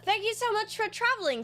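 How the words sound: It is said in a put-on character voice.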